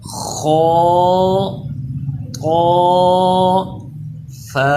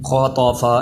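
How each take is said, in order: First: Each letter name is said separately with pauses. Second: The letter names are run together without pauses. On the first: The speaker calls it right. "ऐसे जुदा जुदा ही आपने भी पढ़ते हुए पढ़ना है" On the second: The speaker calls it wrong. "ऐसे नहीं करना"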